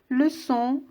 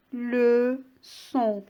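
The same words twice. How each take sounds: First: Said in the usual way. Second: "leçon" as two drawn-out syllables, le and çon; split into syllables. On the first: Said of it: "On va le découper en syllabes". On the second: Shown as a demonstration. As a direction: say "leçon" slowly with a gap: le... çon. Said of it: "deux syllabes".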